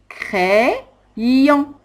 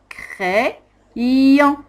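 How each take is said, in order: Both takes have the same delivery.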